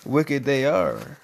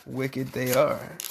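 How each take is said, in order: First: Low, slow dramatic echo; ominous echo. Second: Low, slow and soft; hushed echo. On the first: Parent echoing the servants, slow, low and ominous. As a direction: intone it like a spooky verdict. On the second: Parent repeating the verdict, slow, low and soft. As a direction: breathe it out like a secret. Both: Acted.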